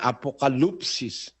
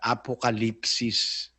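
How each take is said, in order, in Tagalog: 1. Ang patinig pagkatapos ng L ay tunog na 'oo'. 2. Ang patinig pagkatapos ng L ay tunog na 'ee'. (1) "kung babasahin mo, ang naglagay na paraan ng pagbasa, nakalagay" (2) "sa tamang pronunciation sa Grego, ... Katumbas yun ng I sa atin eh"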